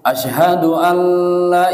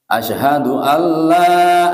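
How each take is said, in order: First: The vowel in 'la' is short. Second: The vowel in 'la' is long. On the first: The speaker calls it wrong. "itu salah. La-nya kurang panjang" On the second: The speaker calls it right. "nah panjang Pak"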